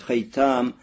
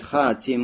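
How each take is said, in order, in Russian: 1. Слово произносится как haytam. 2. Слово произносится как hatim. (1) "можно говорить хайтам" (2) "можно говорить хатим"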